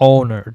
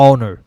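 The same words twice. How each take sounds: The two takes are said the same way.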